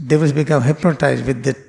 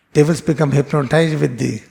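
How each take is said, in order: Both takes have the same delivery.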